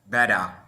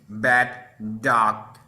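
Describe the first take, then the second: First: The two D sounds merge into one. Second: Both D sounds are said separately. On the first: The speaker calls it right. "we say" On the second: The speaker calls it wrong. "instead of say"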